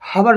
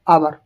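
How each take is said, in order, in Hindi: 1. इस शब्द की शुरुआत में साफ़ h की ध्वनि सुनाई देती है। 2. इस शब्द की शुरुआत स्वर से होती है, h साइलेंट है। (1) "हबर नहीं बोलते इसको" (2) "एच क्या रहता है, साइलेंट रहता है"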